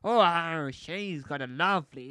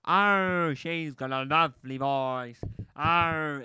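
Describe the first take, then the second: First: Lightly voiced pirate, louder; a hint of a swooning pirate. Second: Louder, slower swooning pirate. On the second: Retold or imitated. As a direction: ham up a lovestruck pirate. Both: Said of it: "it's my pirate voice".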